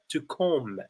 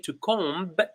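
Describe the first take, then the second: First: The final B is silent. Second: The final B is pronounced. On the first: The speaker calls it right. "but rather to comb the hair" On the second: The speaker calls it wrong. "We don't say to comb"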